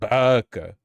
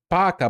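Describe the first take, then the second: First: It is said the way guys say it. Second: It is said in a cute, girlish way.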